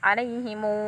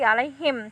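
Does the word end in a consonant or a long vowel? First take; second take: long vowel; consonant. First: The word ends with a long u vowel. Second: The word ends on a closed m sound. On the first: "tetapi menjadi 'alaihimu" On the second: "bukan lagi 'alaihim"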